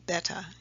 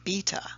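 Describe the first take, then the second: First: The word is said in an American accent. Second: The word is said in a British accent. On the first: "or Beta in America" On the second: "and Beta in the United Kingdom"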